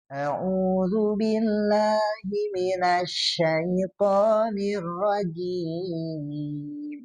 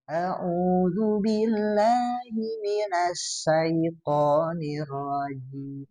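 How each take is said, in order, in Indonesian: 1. Konsonan dalam 'syaitonir' adalah bunyi sh yang berdesis lembut. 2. Konsonan dalam 'syaitonir' adalah bunyi s yang berdesis tajam. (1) "Harusnya kan shin besar gitu" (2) "dibaca sin ya"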